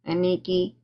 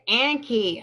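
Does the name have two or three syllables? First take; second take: three; two. First: The name is said with three syllables. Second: The name is said with two syllables. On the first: The speaker calls it wrong. "Am I saying it right?" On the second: The speaker calls it right. "Anki, is that how it's pronounced? Yes, Anki"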